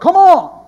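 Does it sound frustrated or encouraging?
encouraging. It sounds encouraging and cheering.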